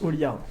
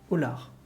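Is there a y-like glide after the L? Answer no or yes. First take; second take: yes; no. First: The name is said with a y-glide after L. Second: The name is said without a glide after L. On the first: The speaker calls it right. "Et ça se prononce Oliar" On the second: The speaker calls it wrong. "ça se prononce pas comme ça"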